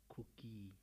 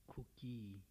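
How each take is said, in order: Both takes have the same delivery.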